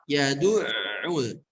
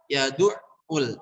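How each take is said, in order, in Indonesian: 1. Bunyi ain tetap terdengar sampai habis. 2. Bunyi ain terputus mendadak. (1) "Yang tepat yad'ul. Ainnya tetap terdengar" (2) "di ainnya terdengar berhenti"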